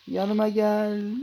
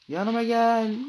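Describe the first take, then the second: First: Slow, loud, higher "Yanıma gel" stretched out; drawn-out call. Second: Higher, loud "Yanıma gel" at normal pace; loud call. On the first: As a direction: drag "Yanıma gel" out slowly. Calling the shark again. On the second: Calling the shark over. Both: Pretend.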